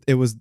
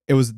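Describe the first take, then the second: The two takes are said the same way.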